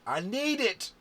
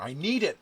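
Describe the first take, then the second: First: Higher, louder pleading cry; desperate plea. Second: Loud urgent plea; pleading with the dice. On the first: Player begging the dice on the last roll, crying out. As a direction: beg the dice even harder. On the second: Begging the dice before rolling. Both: Real, not acted.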